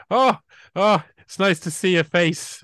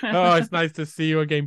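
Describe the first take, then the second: First: Higher, louder mock greeting; imitating polite Brits. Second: Raised mock greeting; imitating polite Brits. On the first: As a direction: play a chirpy Brit spotting a face in winter. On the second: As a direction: greet an old neighbour in chirpy mock politeness. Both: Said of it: "and they go".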